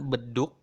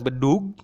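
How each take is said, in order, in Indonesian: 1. Kata ini berakhir dengan bunyi K. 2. Kata ini berakhir dengan bunyi G. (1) "kita lagi-lagi mengucapkan beduk seperti bunyi K" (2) "bukan bunyi G, bukan bedug"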